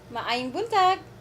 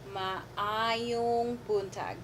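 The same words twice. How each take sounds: First: It is said at natural conversational speed. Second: It is said very slowly, syllable by syllable.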